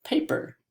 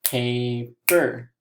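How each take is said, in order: First: PAPER quickly as one word; quick, unbroken PAPER; said fast. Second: PAPER in two separate beats, pa, per; split into syllables. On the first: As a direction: say PAPER fast, syllables joined. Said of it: "let's say the word fast". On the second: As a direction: lead the class through pa-per, beat by beat. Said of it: "Let's do it all together". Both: Shown as a demonstration.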